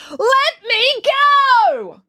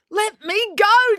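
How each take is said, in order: First: Loud, very high, long-drawn scream; high movie-style scream. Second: High, slow, insistent demand; high, forceful demand. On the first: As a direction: scream it, stretching every word. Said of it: "She screamed". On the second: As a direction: insist on it, drawing out each word. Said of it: "demanded April". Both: A narrator's reading.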